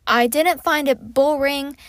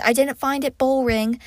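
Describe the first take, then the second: First: Slipping into an English accent; unintended posh British lilt. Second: Said in the usual way. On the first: Real, not acted. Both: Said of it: "Why am I speaking in an English accent?".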